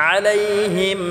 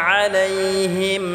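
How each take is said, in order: Both takes have the same delivery.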